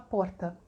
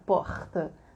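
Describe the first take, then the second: First: It is said in a Southern Brazilian accent. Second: It is said in a heavy Rio accent.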